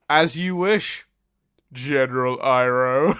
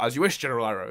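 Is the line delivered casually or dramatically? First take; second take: dramatically; casually. First: It is said slowly with heavy, dramatic emphasis. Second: It is said quickly and lightly, like conversation. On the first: The speaker calls it wrong. "he like puts so much emphasis on it" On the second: The speaker calls it right. "it should just be a casual"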